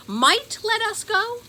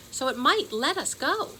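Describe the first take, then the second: First: High, loud disbelieving question; incredulous. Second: Said in the usual way. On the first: A narrator's reading. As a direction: throw her words back in disbelief. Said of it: "said Ben".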